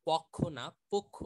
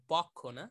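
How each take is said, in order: First: পক্ষ said louder, the first প leaning to an o sound; o-sound demo. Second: পক্ষ said loud, as the wrong flat reading; the rejected পক্ষ. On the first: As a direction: contrast পক্ষ with পোক্ষ. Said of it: "ওকার টেনে পড়তে হয়". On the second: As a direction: give পক্ষ as the mistake. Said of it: "ওটা হবে পক্ষ". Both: Shown as a demonstration.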